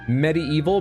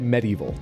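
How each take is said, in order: First: The name is said with a deliberately twisted pronunciation. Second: The name is said with its ordinary, standard pronunciation. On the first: The speaker calls it wrong. "I don't need to mispronounce the name to get across that its fucking title was a pun" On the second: The speaker calls it right. "I should just say Medieval"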